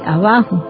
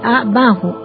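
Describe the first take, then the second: First: The word is said joined as one unit. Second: The word is split into two separate parts. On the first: The speaker calls it right. "para poderla pronunciar bien se dice abajo" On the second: The speaker calls it wrong. "la gente dice abajo"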